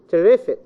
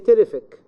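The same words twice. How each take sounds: First: The stress is on the middle syllable. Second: The stress is not on the middle syllable. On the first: The speaker calls it right. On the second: The speaker calls it wrong.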